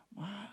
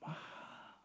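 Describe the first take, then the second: First: Said softly. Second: Mahal whispered with no voice at all, like a secret. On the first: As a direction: drop the voice right down on mahal before the whisper. (mahal diucapkan pelan) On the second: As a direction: breathe out Mahal as a hushed secret to the congregation. (Mahal dibisikkan seperti rahasia) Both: Shown as a demonstration. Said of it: "Jangan keras-keras ngomongnya".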